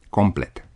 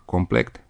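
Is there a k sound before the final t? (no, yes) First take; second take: no; yes. First: The word ends with a plain t sound. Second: The word ends with a k sound before t. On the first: The speaker calls it right. "Forma corectă este" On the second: The speaker calls it wrong. "forma complet nu este corectă"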